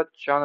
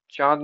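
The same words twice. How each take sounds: First: Said in the usual way. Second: चांद said 'chaad'; missing nasal. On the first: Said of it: "अनुस्वार चांद होता है". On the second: Shown as a demonstration. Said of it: "नहीं होता".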